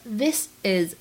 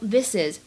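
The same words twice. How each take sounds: First: The two words are said separately. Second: The two words are linked together.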